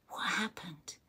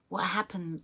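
First: Whisper. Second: Said in the usual way. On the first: Real, not acted. Reacting to a sad message.

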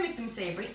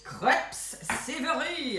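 First: Said in the usual way. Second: Hammed-up French accent on "crepes savory". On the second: Baker telling viewers about savory crepes, mock French accent. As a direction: put on a showy French accent, stretching "savory". Showy French saying, then plain repeat.

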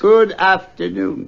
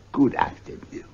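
First: Slow, raised and insistent; firm dismissal. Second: Under the breath, ending the talk; curt whispered dismissal. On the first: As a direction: shut the door on the talk. Scrooge repeats dismissal, firmer. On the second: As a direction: wave him off coldly. Scrooge dismisses nephew curtly. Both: Acted.

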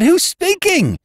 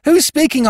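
First: Higher, louder insistent question; insistent repeat. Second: High, loud urgent call; urgent question. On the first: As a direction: press the caller for an answer. Repeating into the phone. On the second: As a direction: demand an answer down the line. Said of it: "I said". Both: A narrator's reading.

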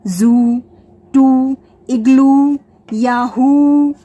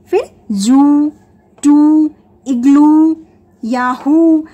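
First: Very slow याहू with a long final u; slow word demo. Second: Slow जू and टू with a long final oo, louder; slow word demo. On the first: Teacher repeating word-final oo examples, very slow. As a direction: drag out टू and इग्लू. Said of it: "उसका sound long होगा". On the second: Teacher showing a word-final double O, slow and stretched. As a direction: stretch इग्लू, ending on a long oo. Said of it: "इसी तरह से". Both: Shown as a demonstration.

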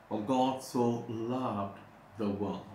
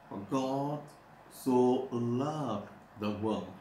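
First: "For God so loved the world" read slowly and solemnly; slow quoted verse. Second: "For God" lifted, then "so loved the world" drawn out very slowly; stress on "so loved". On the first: Preacher quoting the key verse slowly to church. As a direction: lay out "For God so loved" word by word. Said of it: "the key verse". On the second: Preacher showing the church how he stresses the verse. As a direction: lean hard and slow on "so loved the world". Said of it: "I always emphasize". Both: Shown as a demonstration.

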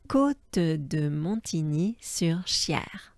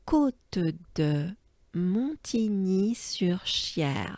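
First: Côte de Montigny-sur-Cher whispered slowly; calm slow repeat; slow whispered place name; steady repeat. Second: Côte de Montigny-sur-Cher whispered slowly in one breath; slow whole-name demo. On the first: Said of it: "encore une fois". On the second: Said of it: "let's take a good breath". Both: Shown as a demonstration.

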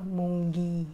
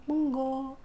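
First: Munggi ending in ee; Indian munggi. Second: Munggo ending in a round o; Filipino munggo. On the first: Vlogger showing the Indian munggi, final ee. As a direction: end munggi on ee. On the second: Vlogger showing the Filipino munggo, round final o. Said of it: "Sabi mo". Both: Shown as a demonstration.

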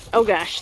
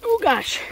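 First: Said in the usual way. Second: Sudden high yelp of surprise; startled. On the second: Real, not acted. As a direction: caught off guard by the dog. Dog jumps on her.

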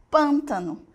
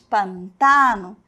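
First: Pântano the Portuguese way, stressed on PÂN; Portuguese pronunciation. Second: Pantano slow, stressed on TA; Spanish pronunciation. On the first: Teacher gives the Portuguese counterpart, pântano stressed on the first syllable. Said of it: "a sílaba tônica está onde?". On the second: Teacher repeats the different word, slow pantano with stressed TA. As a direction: say pantano as pan-TA-no. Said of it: "olha que diferente". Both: Shown as a demonstration.

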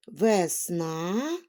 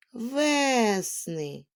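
First: Весна with a rising, stressed final НА; stress on last syllable. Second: Весни with a long stressed first syllable ВЕ. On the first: Teacher showing children shifting stress, весна stressed on НА. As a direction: lean on the НА in весна. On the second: Teacher showing children shifting stress, весни stressed on ВЕ. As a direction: stretch the ВЕ in весни, let the ending fall. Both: Shown as a demonstration. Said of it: "щоб наголос у слові змінював".

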